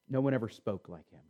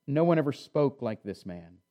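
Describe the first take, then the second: First: Much softer, lower, in awe; preacher repeating the guards' words in soft wonder; hushed echo. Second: Said in the usual way. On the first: Real, not acted. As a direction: let the line sink to a near hush.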